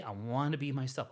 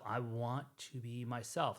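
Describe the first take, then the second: First: Said in the usual way. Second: "I want to be myself" drawn out slowly; slow, deliberate restatement. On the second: Real, not acted. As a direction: spell out "I want to be myself", unhurried. Restates his wish more deliberately.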